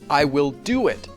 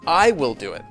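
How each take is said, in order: First: The stress falls on the verb. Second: The stress falls on the subject. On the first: The focus is on the action itself. "more emphasis on the verb" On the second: The focus is on who will do it. "more emphasis on the subject of that verb"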